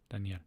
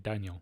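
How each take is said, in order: First: The name is pronounced with Spanish sounds. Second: The name is pronounced with English sounds. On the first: "I do mean how to pronounce it in Spanish" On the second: "I'm speaking English, so I feel like it's okay to say Daniel"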